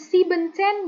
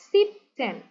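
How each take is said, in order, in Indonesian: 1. Kata ini tetap punya suku kata tambahan en. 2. Kata ini menghilangkan suku kata en. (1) "Bukan siebzehn" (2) "E N-nya dihilangin"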